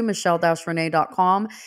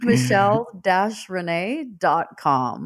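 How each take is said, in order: First: It is said fast. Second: It is said slowly.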